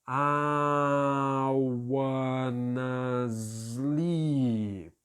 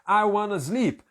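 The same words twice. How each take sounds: First: The phrase is drawn out very slowly. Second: The phrase is said at normal, quick speed. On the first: The speaker calls it right. "Você vai fazer em super câmera lenta" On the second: The speaker calls it wrong. "você não vai praticar a pronúncia assim"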